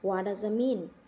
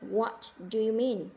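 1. Các từ bị rút gọn và nối liền nhau. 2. Mỗi từ được nói chậm và tách rời. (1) "Nó nói liền" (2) "đánh vần thong thả như vậy. Từng từ một"

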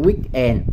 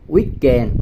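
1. Hai phần được đọc tách riêng. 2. Hai phần nối liền với nhau một cách trơn tru. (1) "chứ không phải weekend" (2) "Tức là cái âm này nó dính với nhau"

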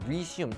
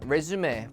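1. 이 단어는 'zoom' 소리로 끝납니다. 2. 이 단어는 'may' 소리로 끝납니다. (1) "재개하다라는 뜻으로 발음과 뜻이 달라지니까" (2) "명사로 이력서에 있죠 ... 레주메"

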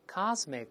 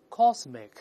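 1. 第一个元音是开口的、不圆唇的，嘴唇放松。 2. 第一个元音是圆唇的，嘴唇撮起。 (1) "美国英语是个lazy English，懒惰的英语啊，这口型舒服多了，甭撅嘴了" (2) "当然英国人读出cosmic"

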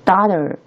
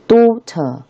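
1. 这是美式口音。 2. 这是英式口音。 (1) "美式发音叫daughter" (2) "但是英式发音叫daughter"

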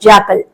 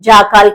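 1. రెండో అక్షరంలో హ్రస్వమైన, తగ్గించిన అచ్చు ఉంది. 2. రెండో అక్షరంలో దీర్ఘమైన, పూర్తి అచ్చు ఉంది. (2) "జాకాల్ కాదు"

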